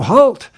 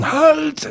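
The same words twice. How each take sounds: First: Mock yell in a plain American accent, pitched up; standard American accent. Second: High-pitched yell in a German accent. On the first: Director imitating his actor's take, American-accented yell. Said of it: "said it in a standard American, American accent". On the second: Shown as a demonstration. Director dubbing the Gestapo agent, German-accented yell. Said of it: "that's my voice saying".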